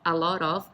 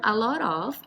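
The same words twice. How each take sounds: First: The words are run together quickly as one. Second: The words are said separately and carefully.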